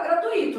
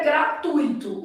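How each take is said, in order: First: "gratuito" said gra-tu-I-to, the stress pushed onto the i; mock wrong pronunciation. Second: "gratuito" said gra-tui-to, the "tui" held together as one stressed syllable; correct pronunciation. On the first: Teacher to exam candidates, mimicking how people wrongly say "gratuito". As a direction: imitate the common slip, gra-tu-Í-to for "gratuito". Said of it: "vão falar gratuito". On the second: Teacher to exam candidates, showing the correct "gratuito". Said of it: "O certo é gratuito". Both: Shown as a demonstration.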